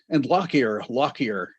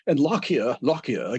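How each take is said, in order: First: It is said in the speaker's usual accent. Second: It is said in a put-on British accent. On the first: The speaker calls it wrong. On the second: The speaker calls it right.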